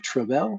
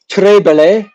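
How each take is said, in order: First: The last word ends in an 'el' sound. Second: The last word ends in an 'ay' sound. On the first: The speaker calls it right. "Not belay. Bell" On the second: The speaker calls it wrong. "I didn't say it right"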